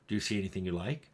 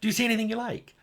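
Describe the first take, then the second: First: It is said in a flat, neutral tone. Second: It is said in a warm, happy tone. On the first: The character has no feelings toward the listener. "the neutral" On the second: The character is glad to see the listener. "the happy to see you"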